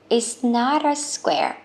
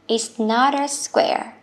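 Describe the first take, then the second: No difference in how they are said.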